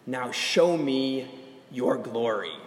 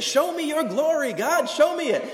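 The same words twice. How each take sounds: First: Said in the usual way. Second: High, loud pleading cry to God; calling out. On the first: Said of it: "Moses says to God in verse eighteen". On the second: Retold or imitated. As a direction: shout it up toward heaven, begging. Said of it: "He's just calling out".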